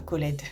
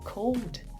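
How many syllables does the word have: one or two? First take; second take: two; one. First: The ending is voiced as a separate syllable. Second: The ending is a bare d, one syllable. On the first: The speaker calls it wrong. "et pas called" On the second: The speaker calls it right. "je vais dire I called you"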